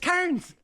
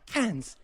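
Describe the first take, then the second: First: It is said with the Irish vowel. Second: It is said with the Australian vowel. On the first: "it's spelled C A I R N S. That's Cairns" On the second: "I said cans the way that the Australians say cans"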